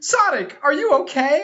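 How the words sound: It is read with strong emotional feeling.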